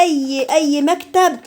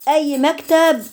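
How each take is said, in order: First: "اي، اي مكتب" drawn out slowly, each word weighted; slow down and lean on "مكتب"; slow emphasis. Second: Said in the usual way. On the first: Shown as a demonstration. (ببطء وتشديد على "مكتب") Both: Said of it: "خدوا بالكم الكلمه دي".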